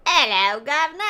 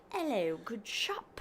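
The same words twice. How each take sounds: First: Hammed-up Cockney "Hello, governor", higher and louder; Cockney accent. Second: Slow, mock posh British "Hello, good shop"; posh British accent. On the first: Wife contrasting Cockney with posh British, in hammed-up Cockney. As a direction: do a cheeky London street Cockney greeting. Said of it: "Cockney's the, like". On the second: Wife contrasting posh with Cockney British, in slow mock posh. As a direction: put on a plummy upper-class English greeting, slowly. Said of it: "But posh, it's like". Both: Shown as a demonstration.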